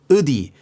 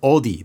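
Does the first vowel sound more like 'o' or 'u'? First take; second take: u; o. First: The first vowel sounds like a closed 'u'. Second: The first vowel sounds like an open 'o'. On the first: This is the regional dialect form. "I had to say it more like udi" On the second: This is the standard form. "every time I said odi"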